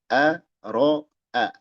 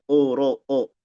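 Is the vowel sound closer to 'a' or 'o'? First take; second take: a; o. First: The vowels are clear open 'a'. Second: The vowels are rounded toward 'o'. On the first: The speaker calls it right. "Yang a jelaskan a-nya" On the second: The speaker calls it wrong.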